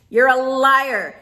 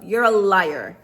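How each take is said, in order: First: Slow down and hit it harder; indignant call-out, slowed and louder; louder, slower emphatic repeat. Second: Said in the usual way. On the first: Real, not acted. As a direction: drag out You're a liar with force.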